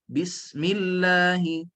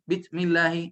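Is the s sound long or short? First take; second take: long; short. First: The s sound is long, breathy and hissing. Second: The s sound is short and clipped. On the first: The speaker calls it right. "Bunyi sin itu mesti nafas berterusan" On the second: The speaker calls it wrong. "kita tak boleh sebut bismillahi"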